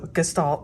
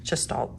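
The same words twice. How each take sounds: First: The word starts with a hard G sound. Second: The word starts with a J sound. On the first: The speaker calls it right. "but it's also gestalt" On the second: The speaker calls it wrong. "not gestalt"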